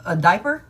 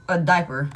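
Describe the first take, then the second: First: Diaper? asked with a rising tune; incredulous question. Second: A diaper. settled with a falling tune; flat echo. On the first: Reader reacting to viewers' baby news with a rising, disbelieving question. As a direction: lift the end of diaper? in disbelief. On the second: Reader repeating the word to herself, falling and dismayed. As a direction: drop the end of A diaper. in dismay. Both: Real, not acted.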